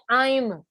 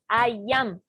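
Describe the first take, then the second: First: It is said as one joined word. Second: It is said as two separate words. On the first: "Es una sola unida" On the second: "Tengo dos palabras"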